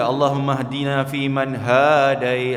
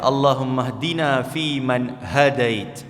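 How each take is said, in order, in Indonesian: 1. 'Ha' pada 'hadait' dipanjangkan. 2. 'Ha' pada 'hadait' pendek. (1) "jangan dipanjang-panjangkan di tempat yang tak sepatutnya" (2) "dia tak panjang dekat ha tu"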